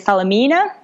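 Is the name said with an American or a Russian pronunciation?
American. The name is said with American English sounds. This is how Americans say the brand name. "I guess American name will be"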